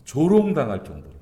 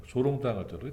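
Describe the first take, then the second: First: 조롱당할 punched out loud with a falling close; stressed emphasis. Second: Said in the usual way. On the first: Shown as a demonstration. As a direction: lean hard on 조롱당할, then let it fall.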